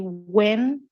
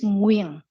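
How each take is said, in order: First: The name is said like 'when'. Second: The name is said like 'Nguyen'. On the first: "If you say when, it's okay. It's acceptable" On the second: "it's Nguyen"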